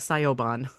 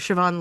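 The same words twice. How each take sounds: First: The name is sounded out letter by letter. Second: The name is said the traditional Irish way. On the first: The speaker calls it wrong. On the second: The speaker calls it right.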